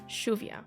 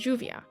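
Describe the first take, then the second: First: The word begins with an SH sound. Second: The word begins with a J sound. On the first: "pronounced with a S H sound" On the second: "pronounced with a J sound"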